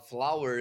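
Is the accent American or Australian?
American. It is said in an American accent.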